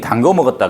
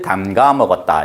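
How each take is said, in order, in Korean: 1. 동사 어미는 'gwo' 소리로 발음해요. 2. 동사 어미는 'ga' 소리로 발음해요. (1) "다 틀린 거야" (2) "이렇게 해야 된다라는 거야"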